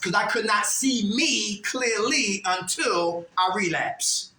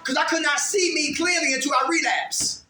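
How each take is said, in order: First: It is said slowly. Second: It is said fast.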